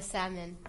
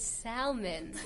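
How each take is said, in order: First: "salmon" with no L sound; silent L in salmon. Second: "salmon" slowly, with the L sounded; pronounced L. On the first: Co-host naming her dish for the debate, silent-L salmon. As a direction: say "salmon" as SAM-un, L left silent. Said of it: "you say how you pronounce it". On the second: Guest questioning the pronunciation, salmon with audible L. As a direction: say "salmon" as SAL-mun. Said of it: "pronouncing the L". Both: Shown as a demonstration.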